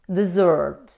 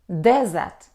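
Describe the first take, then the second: First: The stress is on the second syllable. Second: The stress is on the first syllable. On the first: It means to leave someone without help. "when we stress on the second syllable, we pronounce desert" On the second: It names a dry area of land. "It's a noun with stress on the first syllable"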